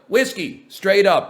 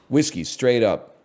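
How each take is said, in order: First: It sounds young, nervous and over-rehearsed. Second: It sounds slick, polished and sales-like. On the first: The speaker seems underage and unconvincing. "I sound like a little kid with a fake I D" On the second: The speaker seems like a salesperson. "now I sound like a fucking realtor or something"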